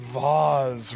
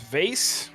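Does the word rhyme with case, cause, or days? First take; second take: cause; case. First: The vowel is 'ah' with a buzzing z. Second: The vowel is 'ay' with a hissing s. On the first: "rhymes with cause" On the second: "rhymes with case"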